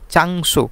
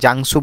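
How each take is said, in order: First: The word begins with a 'ch' sound. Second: The word begins with a 'j' sound.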